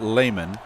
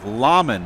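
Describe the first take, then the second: First: The first syllable sounds like 'lay'. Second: The first syllable sounds like 'lah'. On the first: The speaker calls it wrong. "and not Layman" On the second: The speaker calls it right. "his name is Laman"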